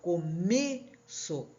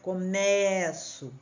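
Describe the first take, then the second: First: The stressed E is a closed vowel. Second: The stressed E is an open vowel. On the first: It is the noun meaning the beginning. "o E é fechado" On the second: It is the verb meaning I begin. "O som desse E, ele é aberto"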